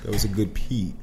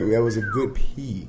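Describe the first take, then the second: First: It is said softly. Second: It is said at normal loudness.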